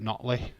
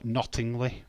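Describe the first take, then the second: First: The middle syllable is dropped, shortening the name. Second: All syllables are pronounced as spelled. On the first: It is how local people say it. "we call it Notley" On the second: It is read from the spelling by an outsider. "if you saw Nottingley"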